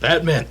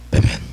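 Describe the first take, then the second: First: It is said in a normal voice. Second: It is said in a deep Batman voice.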